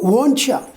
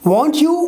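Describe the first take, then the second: First: "You" is shortened to a weak "ya". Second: "You" is said in full, unlinked.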